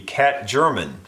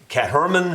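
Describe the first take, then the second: First: The second part begins with a hard G sound. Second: The second part begins with an H sound. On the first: "if I was just pronouncing it totally phonetically" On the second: "something like that perhaps"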